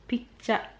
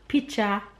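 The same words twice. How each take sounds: First: It is said in a Jamaican accent. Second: The same.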